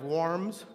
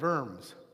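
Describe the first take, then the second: First: The name begins with a W sound. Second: The name begins with a V sound. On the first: The speaker calls it wrong. "So it's not diet of worms" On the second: The speaker calls it right. "the W in German is pronounced B with the V sound"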